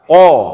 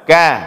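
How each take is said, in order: First: It starts with a thick sound from the throat. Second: It starts with a thin sound at the palate. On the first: The speaker calls it right. "bacaannya tebal" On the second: The speaker calls it wrong. "Jangan kita baca dengan ka"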